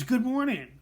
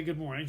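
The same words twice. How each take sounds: First: Loud, high mock-scream of a greeting. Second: Said in the usual way. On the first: Coworker greeting him in the break room, screaming. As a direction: belt it out like an overeager coworker. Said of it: "she screams". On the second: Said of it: "just to be polite".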